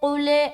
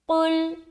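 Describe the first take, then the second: First: An extra vowel is added after the final l. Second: The word stops sharply on the final l. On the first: The speaker calls it wrong. "बाज़ औक़ात लोग कुले कुले ऐसा पढ़ते हैं, जो कि गलत है" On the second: The speaker calls it right. "हमारी आवाज स्टक हो जाएगी"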